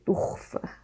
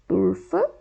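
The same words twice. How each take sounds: First: It is said with a Rio de Janeiro accent. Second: It is said with an inland São Paulo accent.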